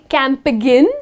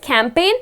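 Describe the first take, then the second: First: A G sound is pronounced in the word. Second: No G sound is pronounced in the word. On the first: The speaker calls it wrong. "You do not say campaign. Okay, that's the incorrect pronunciation" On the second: The speaker calls it right. "where the letter G goes silent"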